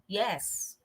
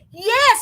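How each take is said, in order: First: It is said with no interest. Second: It is said with excited energy.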